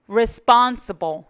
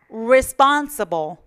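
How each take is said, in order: Both takes have the same delivery.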